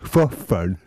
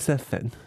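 First: It is said as if without any teeth. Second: It is said in a normal, emphasized voice. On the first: It marks a new kind of italic emphasis. "som man ska uttala som man inte hade tänder alls i munnen" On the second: It marks ordinary italic emphasis. "Det är bara så här"

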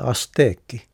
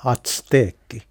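First: The s is said with no t before it. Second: A t sound comes before the s. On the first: The speaker calls it right. "kuuluu alkuperäisen ja kansainvälisen mukaan lausua ässänä. Ja silloin se tulee asteekki" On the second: The speaker calls it wrong. "käytettiin nimenomaan atsteekki. Ja se on väärin"

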